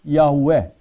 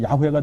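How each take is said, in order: First: The name is said slowly, sound by sound. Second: The name is said quickly as one unit. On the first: "이렇게 발음하는 대로 하면" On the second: "이걸 빨리 하면"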